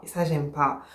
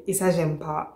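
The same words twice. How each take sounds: First: Muttered displeasure, lower. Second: Muttered displeasure. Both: Real, not acted. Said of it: "je suis énervée".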